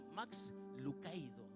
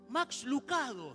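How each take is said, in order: First: The middle vowel of the surname sounds like ay. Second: The middle vowel of the surname sounds like ah. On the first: The speaker calls it right. "Se llama Max Lucaido" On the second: The speaker calls it wrong. "Ese apellido no se pronunciaba así"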